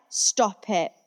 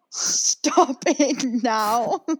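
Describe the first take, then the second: First: Said in the usual way. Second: Very slow, laughing through the words; begging them to stop while cracking up; drawn-out giggling stop it now; laughing plea. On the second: Retold or imitated. Cringing at a celebrity clip.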